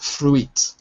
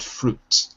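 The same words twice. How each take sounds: First: The letter i is sounded as an extra vowel. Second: The letter i is silent, one vowel sound. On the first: The speaker calls it wrong. "not fruit" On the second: The speaker calls it right. "but fruit"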